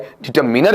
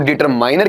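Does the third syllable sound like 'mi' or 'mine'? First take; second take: mi; mine. First: The third syllable has a short 'mi' sound. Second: The third syllable has a long 'mine' sound. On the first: The speaker calls it right. "डिटरमिनर में आ जाता है" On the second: The speaker calls it wrong. "डिटरमाइनर की बजाय"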